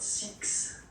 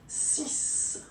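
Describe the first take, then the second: First: The word ends with a ks sound. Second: The word ends with a plain s sound. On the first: The speaker calls it wrong. "it's not six" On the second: The speaker calls it right. "you will have to pronounce it like S"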